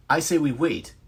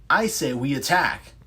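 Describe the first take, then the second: First: Raised arguing voice for waiting. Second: Louder arguing voice pushing to attack. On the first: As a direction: push back hard, insist on waiting. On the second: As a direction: shove back, insist on attacking. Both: Acted.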